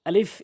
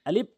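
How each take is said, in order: First: It is said with air pushed out audibly. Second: It is said without the breathy air release. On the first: The speaker calls it right. "উপরের দাঁতগুলো নিচের ঠোঁটে রেখে এভাবে বাতাস বের করে" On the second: The speaker calls it wrong. "এভাবে যেন না হয়"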